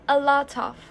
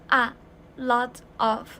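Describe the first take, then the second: First: The t sound runs straight into of. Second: The words are said separately.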